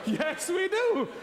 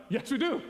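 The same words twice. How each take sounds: First: High, slow, laughing repeat; laughing slow agreement. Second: Quick, keen yes to win her over; eager agreement. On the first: Retelling his reply to the officer, laughing it out slowly. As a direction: drag it out through a laugh. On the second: To the visa officer, an eager quick agreement. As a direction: agree fast and brightly. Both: Retold or imitated.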